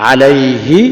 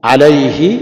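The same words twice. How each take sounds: Both takes have the same delivery.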